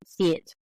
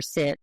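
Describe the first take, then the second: First: "see it" broken into two vowels for sit; Southern drawl on sit. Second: Said in the usual way. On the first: Shown as a demonstration. Linguist showing her pronunciation, two-vowel "see it". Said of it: "she had some Southern pronunciation features". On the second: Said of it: "for sit".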